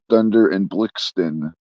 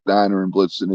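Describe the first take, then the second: First: The names are said as Dunder and Blixten. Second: The names are said as Donner and Blitzen. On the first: The speaker calls it right. "It's uh, Dunder and Blixten" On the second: The speaker calls it wrong. "It's not Donner and Blitzen"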